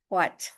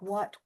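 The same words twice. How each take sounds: First: It starts with a breath before the w. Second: It starts with a plain w sound. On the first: "a little bit of breath before the W sound" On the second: "Sounds just like I'm pronouncing it with a W by itself"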